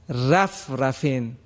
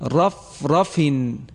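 First: The r sound is light and thin. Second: The r sound is heavy and full. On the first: The speaker calls it wrong. "را رو در اینجا ترقیق کرده، این صحیح نیست" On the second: The speaker calls it right. "حرف را درشت و پرحجم ادا شد"

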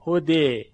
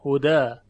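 First: The word ends in a vowel tilted toward 'e'. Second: The word ends in an open 'a' vowel. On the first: "الف رو میل بدیم به سوی یا" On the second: "در اینجا ما الف تلفظ میکنیم"

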